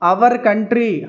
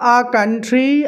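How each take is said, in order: First: 'Our' is said with two syllables, ending in r. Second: 'Our' is said as one open vowel. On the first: The speaker calls it wrong. "అంతేకాని ఇలా వద్దు" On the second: The speaker calls it right.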